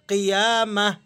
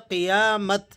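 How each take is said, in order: First: The word ends with an h sound. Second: The word ends with a t sound. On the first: The speaker calls it right. "गोल ता को हम चेंज करेंगे हाथ से और इसे पढ़ेंगे क़ियामह" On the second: The speaker calls it wrong. "स्टॉपिंग mode के अंदर क्या होना चाहिए था? क़ियामत। लेकिन हम इसे चेंज करेंगे"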